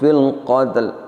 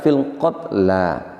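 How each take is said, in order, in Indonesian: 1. Kata itu berakhir dengan konsonan mati. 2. Kata itu berakhir dengan vokal. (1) "ini yang tidak pas" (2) "Yang betul tetap kita baca fil qatla"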